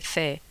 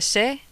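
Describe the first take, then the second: First: The syllable begins with a th sound. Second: The syllable begins with an s sound. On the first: This is how Spanish speakers say it. "we'll say fe" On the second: This is how English speakers say it. "When you say se"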